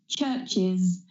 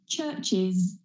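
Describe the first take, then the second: No difference in how they are said.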